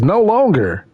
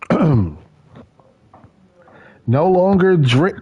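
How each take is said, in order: First: "No longer" lifted a little and leaned on; stress on No longer. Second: Said in the usual way. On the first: Shown as a demonstration. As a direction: hit "No longer" to make the point. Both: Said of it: "it says, "No longer".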